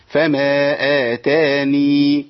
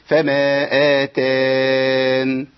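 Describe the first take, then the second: First: آتاني drawn out slowly with the final ya kept. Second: آتان said slowly, stopping without the final ya; dropped ya. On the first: Teacher shows stopping with the ya kept. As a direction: end clearly on the ya of آتاني. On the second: Teacher shows stopping without the ya. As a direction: cut the word at آتان. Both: Shown as a demonstration. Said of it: "ده الوجهين".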